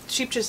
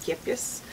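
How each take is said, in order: First: The name begins with an 'sh' sound. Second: The name begins with an 'sk' sound. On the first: The speaker calls it wrong. "I'm saying it wrong" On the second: The speaker calls it right. "it's Skipjes"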